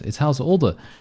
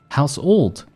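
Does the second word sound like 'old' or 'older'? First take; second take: older; old. First: The second word sounds like 'older'. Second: The second word sounds like 'old'. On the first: The speaker calls it right. "But it's House Older, isn't it?" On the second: The speaker calls it wrong. "now he said House Old"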